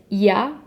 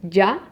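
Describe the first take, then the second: First: The y sound is soft and light. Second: The y sound is strong and firm. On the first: This is how it sounds in Spain. "in Spain, they pronounce it a little bit softer" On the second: This is how it sounds in Mexico. "we in Mexico, we do it a little bit stronger"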